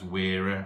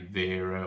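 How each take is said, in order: First: The name begins with a W sound. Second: The name begins with a V sound. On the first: "I'm pronouncing it as Wera" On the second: "I know some people say Vera"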